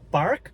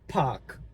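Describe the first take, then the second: First: The r is clearly pronounced after the vowel. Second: The r after the vowel is not pronounced. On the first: "que é o sotaque americano" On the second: "no sotaque britânico"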